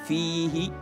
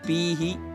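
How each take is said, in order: First: The word begins with an f sound. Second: The word begins with a p sound. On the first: The speaker calls it right. "Tegaskan lagi, rokhawanya, fihi fihi" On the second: The speaker calls it wrong. "jangan pihi"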